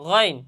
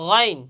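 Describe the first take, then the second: Both takes have the same delivery.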